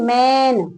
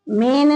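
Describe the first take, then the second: First: The vowel is an open 'ae' sound. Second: The vowel is a plain 'e' sound. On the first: The speaker calls it right. "ए की आवाज आ रही है ना" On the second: The speaker calls it wrong. "मेन नहीं"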